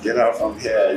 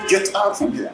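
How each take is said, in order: First: It is said in a light, joking tone. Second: It is said in a stern, serious tone. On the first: The speaker is only kidding. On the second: The speaker really wants the listener gone.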